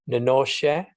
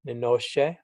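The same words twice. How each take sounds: Both takes have the same delivery.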